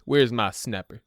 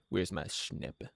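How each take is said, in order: First: Said in the usual way. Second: Much lower and softer, slowed, a silly little murmur; playful low murmur. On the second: Shown as a demonstration. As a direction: mutter it to yourself slowly, low and soft. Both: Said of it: "Where's my dippy dapper?".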